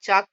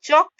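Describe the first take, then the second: First: The vowel is a long open 'aa' sound. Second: The vowel is a rounded open 'aw' sound. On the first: The speaker calls it wrong. "चाक pronunciation is wrong" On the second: The speaker calls it right. "चौक pronunciation is correct"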